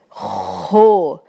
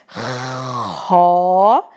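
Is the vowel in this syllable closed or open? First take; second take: closed; open. First: The vowel is a closed o sound. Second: The vowel is an open o sound. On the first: "O fechado" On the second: "O aberto"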